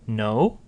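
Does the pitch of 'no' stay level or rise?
rising. The pitch rises through the word. "You notice no and don't are both rising tones"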